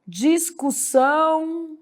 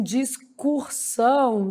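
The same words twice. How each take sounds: First: Slow, soft discussão; no added R. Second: Slow, soft discursão with R; added R. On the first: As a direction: draw out dis-cu-ssão. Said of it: "aí trabalha assim". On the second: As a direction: draw out the mistake dis-cur-são. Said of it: "Faz esse tipo de erro aí". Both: Shown as a demonstration.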